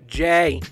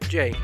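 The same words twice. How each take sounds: First: The name is said with strong emphasis. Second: The name is said flatly, without emphasis.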